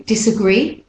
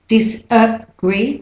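First: Said in the usual way. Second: Disagree slowly split, dis-uh-GREE; de-stressed schwa. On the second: Shown as a demonstration. Teacher showing the schwa, Disagree slow and split. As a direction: separate Disagree around a short uh. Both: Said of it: "the schwa vowel".

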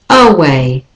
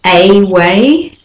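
First: Away with a schwa start, uh-WAY; away begun with a weak uh; right way. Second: A way as two words, AY WAY; a way with a full AY; wrong way. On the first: Teacher models away with a schwa. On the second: Teacher shows how not to say a way. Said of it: "the next word is not a way". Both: Shown as a demonstration.

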